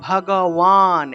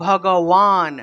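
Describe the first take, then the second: The two takes are said the same way.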